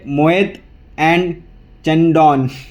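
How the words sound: The name is said with Indian English sounds. The speaker calls it wrong. "Indian English से इसको प्रोनाउंस करने की बात करें"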